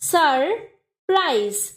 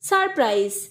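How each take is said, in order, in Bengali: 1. সিলেবলগুলো একটু বিরতি দিয়ে আলাদাভাবে বলা হয়। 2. সিলেবলগুলো কোনো বিরতি ছাড়াই মসৃণভাবে জোড়া লাগানো হয়।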